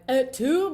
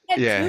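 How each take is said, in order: First: It is said in a grand dramatic manner. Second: It is said like a Housewives wine mom.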